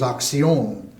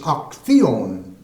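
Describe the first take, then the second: First: The c sounds like s, Latin American style. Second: The c sounds like th, Castilian style.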